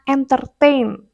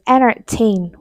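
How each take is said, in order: First: The T after the N is clearly pronounced. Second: The T after the N is dropped. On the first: The speaker calls it wrong. "biasanya kita bilangnya entertain" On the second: The speaker calls it right. "the correct one is entertain without T"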